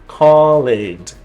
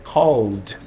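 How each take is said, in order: First: The ending is not a plain d sound. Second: The ending is a plain d sound. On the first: The speaker calls it wrong. "eu não vou falar" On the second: The speaker calls it right. "eu vou falar called"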